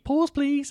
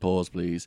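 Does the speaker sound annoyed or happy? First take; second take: happy; annoyed. First: It is said in a happy, cheerful tone. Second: It is said in an annoyed, exasperated tone. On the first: Something good or interesting is happening. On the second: Something bad happened that needs noting.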